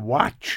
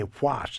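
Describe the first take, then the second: First: The final T is softened, almost like a hiss. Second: The final T is released crisply and hard. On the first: "I do the soft T. ... I say watch" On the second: "I don't say what"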